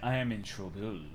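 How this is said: It is said in a put-on French accent.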